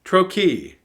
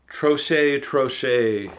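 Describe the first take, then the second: First: Trochee said as tro-kee, with a hard k and ee ending, higher and louder; Trochee, confidently tro-kee, stress on the first syllable; corrected pronunciation. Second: Troche said as tro-shay, ending in a sh sound and ay; unsure guessed pronunciation. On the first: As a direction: repeat Trochee as tro-kee after the dictionary. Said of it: "Trochee (dictionary audio)". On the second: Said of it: "or is it trochee?". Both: Shown as a demonstration.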